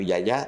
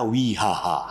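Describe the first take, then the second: First: The name is said with a J sound. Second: The name is said with an H sound. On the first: "mereka nggak bisa pakai Wijaja" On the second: "karena accent Spanyol. J itu dibaca H"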